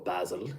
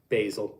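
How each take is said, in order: First: Basil is said with a British pronunciation. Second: Basil is said with an American pronunciation.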